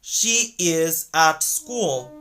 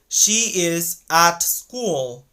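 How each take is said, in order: The two takes are said the same way.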